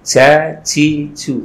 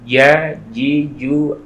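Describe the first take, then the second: First: The j is made with the tongue tip, breathily. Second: The j is made mid-tongue, without breathiness. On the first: The speaker calls it wrong. "keluar dari ujung lidah sehingga keluar hamesnya ... Nah itu salah ya" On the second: The speaker calls it right. "keluarnya dari tengah-tengah lidah"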